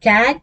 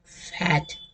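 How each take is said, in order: First: कैट with a lengthened vowel; long vowel. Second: फैट with a quick, short vowel. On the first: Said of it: "थोड़ा मैंने long लिया". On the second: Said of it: "जल्दी से बोला फैट". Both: Shown as a demonstration.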